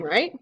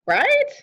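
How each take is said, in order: First: Said in the usual way. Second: "Right" swooping up very high; anxious insistence. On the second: Real, not acted. Player desperate for reassurance, "Right" shooting up high. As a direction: push "Right" into a high, pleading question. Repeats higher, seeking reassurance.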